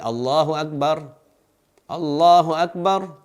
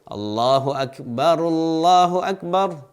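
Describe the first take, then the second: First: Each takbir is said separately with a pause. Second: The two takbirs are joined without a pause. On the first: The speaker calls it wrong. "jangan diucapkan sebanyak empat kali" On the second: The speaker calls it right. "dia kumpulkan di antara dua kalimat takbir"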